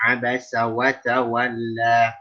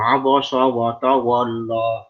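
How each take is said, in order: First: The letters are pronounced thin and light. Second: The letters are pronounced thick and heavy. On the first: The speaker calls it right. "Ingat ini huruf tipis semua" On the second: The speaker calls it wrong.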